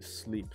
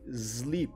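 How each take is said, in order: First: The word begins with a hissing s sound. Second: The word begins with a buzzing z sound. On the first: The speaker calls it right. "You don't say sleep" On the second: The speaker calls it wrong. "You say S's with Z"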